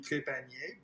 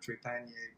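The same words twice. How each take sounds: First: The name is pronounced with a French accent. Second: The name is pronounced with an English accent. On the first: "in French, it would be" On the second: "but in English, you know, you just say"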